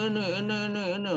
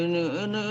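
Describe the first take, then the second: First: Higher, put-on nagging; a hint of a squabbler; mock bickering voice. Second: Said in the usual way. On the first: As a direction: mimic petty people squabbling. Mimicking squabbling people.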